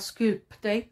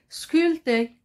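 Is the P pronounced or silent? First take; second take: pronounced; silent. First: The P is clearly pronounced. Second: The P is silent and not heard. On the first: The speaker calls it wrong. "on ne dit pas sculpter, c'est faux" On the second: The speaker calls it right. "On dit sculpter"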